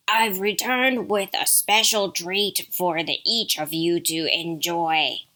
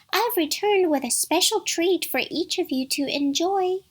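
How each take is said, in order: First: Gruff wolf, slowing at the end; growly wolf coaxing as if mother; deep gruff wolf. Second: High singsong mother-goat voice; soft, tender imitation. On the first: Wolf promises the kids a treat, deep and gruff. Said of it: "You have a deep, gruff voice". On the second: Wolf promises a treat as Mother Goat, tender falsetto. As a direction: coax sweetly in a put-on falsetto. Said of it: "made his voice soft and tender". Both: A narrator's reading.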